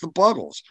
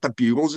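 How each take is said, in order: First: The first vowel is a short 'uh' sound. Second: The first vowel is a long 'you' sound. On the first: The speaker calls it right. "it's the Buggles" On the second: The speaker calls it wrong. "It's not the Bugles"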